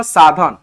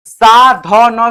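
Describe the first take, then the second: First: Said in the usual way. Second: Slow spelled out. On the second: Shown as a demonstration. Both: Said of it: "एस ए से सा".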